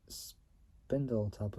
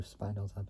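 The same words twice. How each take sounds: First: Spindletop said as SPIN-dul-top; short-i pronunciation. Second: Spindletop said as SPINE-dul-top; long-i pronunciation. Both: Shown as a demonstration. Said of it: "I don't know how you pronounce it".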